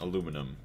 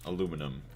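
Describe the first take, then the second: First: It is said with four syllables, American style. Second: It is said with four syllables, American style.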